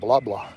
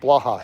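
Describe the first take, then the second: First: The name sounds like two repeated 'blah' syllables. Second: The name sounds like 'bla' followed by 'ha'. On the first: The speaker calls it wrong. "It's not blah blah" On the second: The speaker calls it right. "It's blaha"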